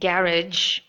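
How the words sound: It is said in a British accent. "which is British way of saying this particular word"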